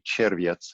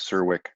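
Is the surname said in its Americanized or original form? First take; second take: original; Americanized. First: The surname is said in its original way. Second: The surname is said in an Americanized way. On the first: This is the true original form of the name. The speaker calls it right. "It's actually" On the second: This is an adapted form used in America. The speaker calls it wrong. "that's the Americanized, bastardized pronunciation"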